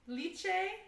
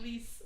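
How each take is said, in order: First: The name is said like 'leh-chay'. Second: The name is said like the word 'lice'. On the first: The speaker calls it right. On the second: The speaker calls it wrong. "I was calling it Lice"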